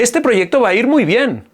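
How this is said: The voice is pitched high and tense. The speaker feels tense. "en el otro sube"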